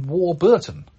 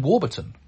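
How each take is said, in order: First: Warburton with BUR stressed as well, war-BUR-ton; misplaced stress. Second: Warburton with the weight on WAR; stress on first syllable. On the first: Retold or imitated. Host reading a listener's mistaken version, Warburton stressed on BUR. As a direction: lean on the second syllable of Warburton. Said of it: "but no, the stress is on". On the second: Shown as a demonstration. Host reading a listener's email, Warburton stressed on WAR. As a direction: say WAR-burton, letting the rest of Warburton fall away. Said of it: "the stress is on the first syllable".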